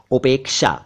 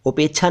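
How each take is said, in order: First: उपेक्षा said as "upek-sha"; correct pronunciation. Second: उपेक्षा said as "upek-chha"; mispronounced उपेक्षा. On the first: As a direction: clear k-sh in उपेक्षा. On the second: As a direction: chh for sh in उपेक्षा. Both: Shown as a demonstration. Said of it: "उपेक्षा नहीं".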